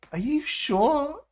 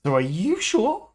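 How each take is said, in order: First: Put-on high, slow English-accent tease; mock English accent. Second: Said in the usual way. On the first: Teasing the AI voice, in a mock English accent. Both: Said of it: "You've nailed the accent for one person in England".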